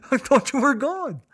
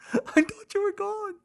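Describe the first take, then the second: First: High, wailing sob; crying. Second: Higher crying wail. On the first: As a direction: sob out "I thought you were gone" in a high wail. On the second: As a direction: let "I thought you were gone" crack way up into a thin wail. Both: Retold or imitated. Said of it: "So I cried".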